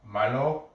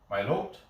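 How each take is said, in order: First: The name ends without a T sound. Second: The name ends with a T sound.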